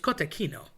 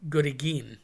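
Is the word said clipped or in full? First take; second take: full; clipped. First: The word is said in its full form. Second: The word is said in a clipped, altered form. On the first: The speaker calls it right. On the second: The speaker calls it wrong. "People say"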